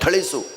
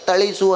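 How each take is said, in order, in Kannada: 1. ಮೊದಲ ವ್ಯಂಜನ ಮಹಾ ಪ್ರಾಣ, ಉಸಿರಿನೊಂದಿಗೆ. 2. ಮೊದಲ ವ್ಯಂಜನ ಅಲ್ಪ ಪ್ರಾಣ, ಉಸಿರಿಲ್ಲದೆ. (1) "ಥಳಿಸು ಅನ್ನಕ್ಕೆ" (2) "ತಳಿಸು ಅನ್ನಂಗಿಲ್ಲ"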